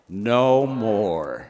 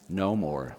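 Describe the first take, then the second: First: It is said more loudly. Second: It is said at a normal, softer volume.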